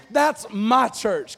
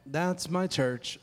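First: THAT'S and MY CHURCH punched slowly and loudly; emphatic. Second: Low, slow, soft and unemphatic; just read it off with no emphasis; flat reading. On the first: Pastor modelling the slogan for congregation, emphatic "That's my church". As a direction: declare "That's my church" with weight on each word. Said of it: "put a little emphasis". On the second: Pastor showing congregation how not to say it, flat reading. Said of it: "can't just read it like". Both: Shown as a demonstration.

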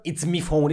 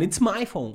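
First: "me" said as "mee" in place of "my"; imitated dialect "me" before "phone". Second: Said in the usual way. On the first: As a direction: say "me" for "my", mimicking dialect. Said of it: "It's not".

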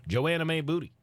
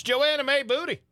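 First: Said in the usual way. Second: "Joanna May Booty" with a high lilting rise on "Joanna"; stress on Joanna. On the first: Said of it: "It's Joanna May Booty". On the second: Shown as a demonstration. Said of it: "very southern type of name".

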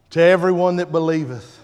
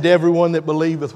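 First: Said in the usual way. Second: "To everyone that believeth" again, faster and firm; repeated for emphasis. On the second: Shown as a demonstration. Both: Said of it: "I said".

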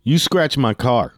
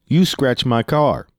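First: Lightly voiced accusing driver, slow and drawn out; other driver's accusation. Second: Slow, incredulous retold retort; getting loud. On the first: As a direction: imitate the driver making his accusation. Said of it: "and then says". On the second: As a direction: throw the accusation back in mock outrage. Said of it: "I started getting a little loud".

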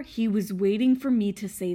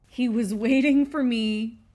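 First: Said in the usual way. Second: Whispered conspiratorially, words breathed out. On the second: Real, not acted. Whispering to the viewers about her intense dog. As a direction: lean in and whisper it like a secret. Repeats line, then whispers it.

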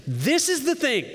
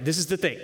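First: High-pitched, emphatic announcement; dramatic proclamation. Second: Said in the usual way. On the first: Acted. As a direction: proclaim it like a big declaration. Dramatic reading of quoted line.

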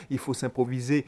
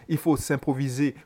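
Both takes have the same delivery.

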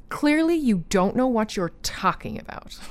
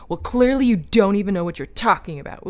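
First: Condescending. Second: Mock condescending. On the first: Retold or imitated. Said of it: "condescending tone". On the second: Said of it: "speak down and say".

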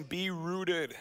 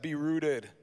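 First: Said in the usual way. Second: Light Minnesota accent; a hint of Minnesota. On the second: Shown as a demonstration. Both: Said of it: "Give me your best, uh, Minnesota accent and say that".

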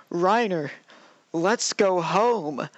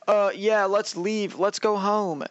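First: Slow, drawn-out mock pleading; mock freak-out. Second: Higher-pitched, offhand imitation; mock casual agreement. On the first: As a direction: imitate a freak-out, stretching the words out. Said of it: "like, starts freaking out". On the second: Imitates Reiner readily agreeing to leave.

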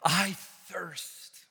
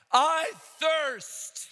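First: Said in the usual way. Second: High, loud cry of thirst. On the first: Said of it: "he cried out". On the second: Acted. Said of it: "In a loud voice, he cried out".

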